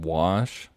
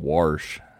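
First: It is said without an r sound. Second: It is said with an r sound, Pittsburgh style.

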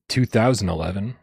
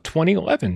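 First: The year is read as two thousand eleven. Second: The year is read as twenty eleven. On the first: This is the older, less cool way to say it. The speaker calls it wrong. "than 2011" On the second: This is the newer, cooler way to say it. The speaker calls it right. "that's a way cooler thing to say"

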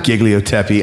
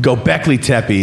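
First: The name begins with 'Gig' run into one word. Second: The name begins with 'Göb' in two separate parts. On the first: The speaker calls it wrong. "It's not Gigliotepi. I've been saying Gigliotepi like a dumb butt" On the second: The speaker calls it right. "It's called Göbekli Tepe"

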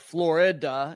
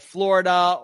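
First: The word is said with three syllables. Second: The word is said with two syllables.

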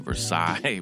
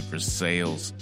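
First: The name is said with a French-style pronunciation. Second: The name is said with a plain anglicized pronunciation. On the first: This is how the French town is said. "which is like the town from France, but we're country, so we don't say Versailles" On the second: This is how locals in rural Kentucky say it. "we say Versailles because of our country we are"

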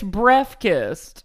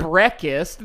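First: The f sound in the middle is clear. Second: The f sound in the middle is dropped. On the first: The speaker calls it right. "There's an F. It's breakfast" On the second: The speaker calls it wrong. "it's not breakfast"

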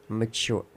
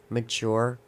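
Both takes have the same delivery.

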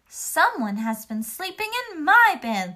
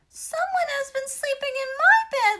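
First: It is said in a normal, medium voice. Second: It is said in a high, squeaky voice.

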